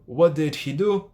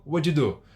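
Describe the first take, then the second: First: "What did he do?" slow, rising at the end; slow textbook form. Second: "What you do?" run together as "wuddidu"; quick, merged "wuddidu", falling at the end; fast linked form. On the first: Teacher repeating the contrast, slow unlinked version. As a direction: separate each word of "What did he do". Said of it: "percebe que tem uma diferença". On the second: Teacher repeating the contrast, fast linked version. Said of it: "Fica bem mais rápido". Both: Shown as a demonstration.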